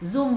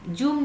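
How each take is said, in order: First: The word begins with a z sound. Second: The word begins with a j sound. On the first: The speaker calls it right. "जूम बोलते हैं" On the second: The speaker calls it wrong. "जूम नहीं बोलते हैं"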